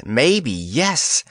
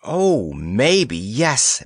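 First: Light sing-song trill. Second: Slow, sing-song trill. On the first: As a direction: trill it after him. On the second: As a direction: trill it playfully. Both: A narrator's reading. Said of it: "trilled Planetti".

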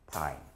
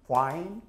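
First: Fine as pine, low and falling; bilabial P. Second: Fine with an English F, rising; labiodental F. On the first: Teacher showing the confusable word, fine as soft low pine. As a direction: close both lips and drop fine into pine. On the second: Teacher stressing that pronunciation matters, Fine with true F. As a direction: start Fine with teeth on lip, voice lifting. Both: Shown as a demonstration. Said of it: "얼마나 발음이 중요한지".

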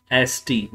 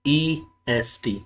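First: "एसटी" spoken as the right ending, letters S-T with no E, falling; "एसटी" said plainly as the correct form, S then T, tune falling; name "एसटी" as the right suffix, S and T only; just the ending ST. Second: "ईएसटी" drawn out slowly as the wrong form, E then S then T; slow, softer "ईएसटी", the form not to use; the wrong ending EST. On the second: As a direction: stretch "ईएसटी" slowly to mark it as the mistake, E-S-T. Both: Shown as a demonstration.

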